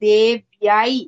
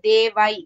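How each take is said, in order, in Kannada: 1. ಈ ಪದವನ್ನು 'y' ಶಬ್ದದೊಂದಿಗೆ ಉಚ್ಚರಿಸಲಾಗುತ್ತದೆ. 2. ಈ ಪದವನ್ನು 'y' ಶಬ್ದವಿಲ್ಲದೆ ಉಚ್ಚರಿಸಲಾಗುತ್ತದೆ. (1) "it is ದೇವ್ಯೈ I I is there" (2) "it is not devai"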